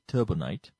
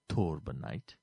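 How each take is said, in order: First: The first syllable sounds like 'turbo'. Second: The first syllable sounds like 'tor'. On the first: The speaker calls it wrong. "not turbo" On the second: The speaker calls it right.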